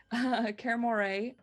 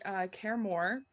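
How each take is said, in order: First: Kermore said slowly as KER-mor-ay, with the final ay; Kermore, carefully corrected; corrected reading. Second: Kermore read as KER-mor with no final sound; Kermore, the first misread. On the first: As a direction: Kermore with three syllables, voicing the Y. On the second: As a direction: Kermore as two syllables, before spotting the Y. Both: Real, not acted. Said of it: "there's a Y that I didn't see there".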